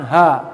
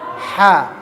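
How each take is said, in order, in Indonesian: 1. Bunyi h adalah hembusan lembut dan terbuka dari dalam. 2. Bunyi h dihimpit rapat dengan gesekan di tenggorokan. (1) "bukan ha" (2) "tapi ha ya terhimpit di tengah ya"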